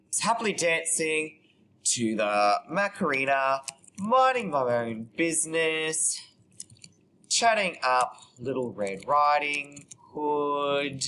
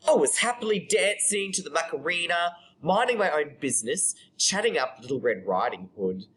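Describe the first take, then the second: First: Slow, stretched dictation; composing aloud. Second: Flowing, animated storytelling; monologue performance. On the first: Real, not acted. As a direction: draw the words out as you type them. Composing aloud while typing. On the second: Acted. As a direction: start high and tell it to an audience. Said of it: "read it out to you".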